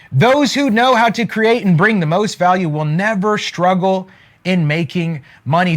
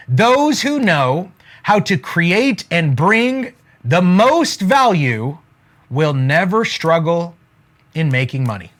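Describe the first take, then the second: First: Said in the usual way. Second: Slow, measured delivery with pauses between phrases; slow dictation. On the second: Real, not acted. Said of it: "write this down".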